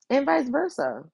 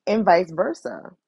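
First: "vice versa" pitched much higher for emphasis; emphatic repeat. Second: Said in the usual way. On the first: Real, not acted. To viewers, insisting it went both ways, emphatic. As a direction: lift "vice versa" high to drive it home.

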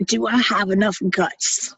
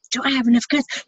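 First: Said in the usual way. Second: Same question pitched well up, rising; higher second ask. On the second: Retold or imitated. Doubting herself before the pills, pitched up. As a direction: push the question higher, pleading. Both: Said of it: "I'm arguing with myself".

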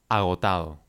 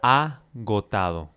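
First: Said in the usual way. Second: Slow model word. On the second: Shown as a demonstration. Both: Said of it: "Nuestra primera palabra es agotado".

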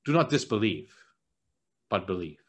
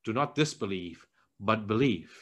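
First: Soft and low, ending very low; quiet and kindly firm, settling low; gentle rebuke. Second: Soft and low, kindly firm; gentle rebuke. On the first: Jesus telling Thomas, lower and quieter. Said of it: "He says". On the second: Jesus gently telling doubting Thomas, soft and low. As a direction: lower and quieter, like a patient friend. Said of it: "But then Jesus also says". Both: Retold or imitated.

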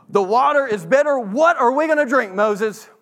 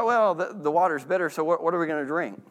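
First: Higher, louder complaining whine; grumbling tone. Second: Mild, even wondering; just asking what comes next, no complaint; curious question. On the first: Thirsty Israelites grumbling to Moses, agitated and higher. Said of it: "That's a very different tone". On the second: Israelites calmly asking Moses about water, curious. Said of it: "more of a curiosity question". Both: Shown as a demonstration.

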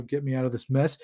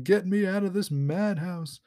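First: Said in the usual way. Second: Lightly acted cry to be let out; mock yell. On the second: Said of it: "he's yelling to himself".

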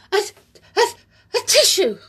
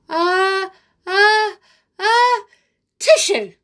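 First: Halting, high build-up to a sneeze. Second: Rising, much higher and louder, exploding into a sneeze; big sneeze. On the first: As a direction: hold the sneeze, then reach for a tissue. Amelia about to sneeze. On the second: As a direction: build up and burst out the sneeze. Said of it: "all Amelia said was". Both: Acted.

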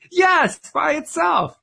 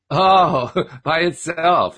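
First: Defensive jump in pitch, stressing "by itself"; indignant insistence. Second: Chuckling through "by itself"; mocking laugh. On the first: Richard insisting to a laughing Don, indignant and high. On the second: Don laughing at Richard's claim, teasing chuckle. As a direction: tease him by laughing out "by itself". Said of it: "He was laughing at me". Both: A narrator's reading.

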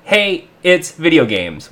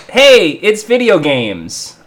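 First: Slow title, halting after "Hey" before "it's video games"; pause for comma. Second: Said in the usual way. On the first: Shown as a demonstration. Host explaining the segment name, comma pause after "Hey". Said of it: "with a comma". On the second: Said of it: "we like to call".

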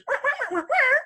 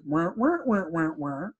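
First: Very high-pitched wordless wah-wah chatter; imitated garbled woman. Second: Imitated garbled man. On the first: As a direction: squeak out a woman's garbled talk as rapid wahs. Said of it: "all I hear is". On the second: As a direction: answer as a faceless man in mumbled wahs. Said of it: "the guy turns around and answers".

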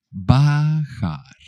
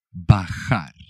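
First: BAJAR stretched out syllable by syllable, higher; higher, elongated teaching take of Bajar; drawn-out word. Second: Said in the usual way. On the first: Shown as a demonstration. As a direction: say Bajar slowly, holding each vowel for learners.

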